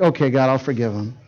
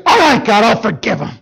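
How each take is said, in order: First: Quiet, lower, sincere yielding; softened surrender. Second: Didn't break nice. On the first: Father yielding to God at last, quiet and sincere. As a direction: let it go gently, at peace. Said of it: "as it kind of worked in my heart". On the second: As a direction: blurt it out, resentful and forced. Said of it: "I didn't break nice". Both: Retold or imitated.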